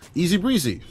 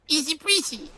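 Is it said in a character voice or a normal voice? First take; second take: normal voice; character voice. First: It is said in a normal speaking voice. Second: It is said in a put-on character voice.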